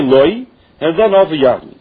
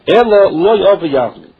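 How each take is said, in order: First: Loi said alone, a break, then Ova Yavmi; split phrase, wrong way. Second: Loi Ova Yavmi run together in one breath; said together, right way. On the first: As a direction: cut Loi off from Ova Yavmi with a clear stop. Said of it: "she should not say". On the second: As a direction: join Loi straight onto Ova Yavmi, no stop. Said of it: "That's the way she says it". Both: Shown as a demonstration.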